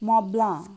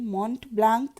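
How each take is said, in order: First: The name ends in a nasal vowel. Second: The name ends with a clear k sound. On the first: The speaker calls it right. "ওটা মবলাঁ। তার মানে অনেকগুলো অক্ষরের কোনো উচ্চারণই নেই।" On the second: The speaker calls it wrong. "মন্ট ব্লাঙ্ক নয় লালমোহনবাবু"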